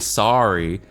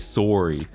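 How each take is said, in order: First: It is said with an American accent. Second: It is said with a Canadian accent. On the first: "Americans are more likely to say" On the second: "Canadians are more likely to say"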